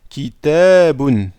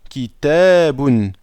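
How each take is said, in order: The two takes are said the same way.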